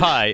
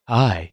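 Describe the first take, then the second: First: It is said in a normal voice. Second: It is said in a put-on sexy voice.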